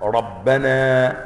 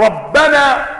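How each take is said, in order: First: ربنا ببطء شديد وتشديد الباء: رَبَّنا; مُدّ "ربنا" كنداء; نطق قراءة النداء. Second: "ربنا" نداء بفتح الباء المشددة: رَبَّنا; قلها كدعاء ونداء; قراءة النداء. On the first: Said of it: "على الطلب، منادى". (قل "ربنا" بفتح الباء المشددة نداءً) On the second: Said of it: "هذا طلب". (نطق "ربنا" على الطلب) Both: Shown as a demonstration.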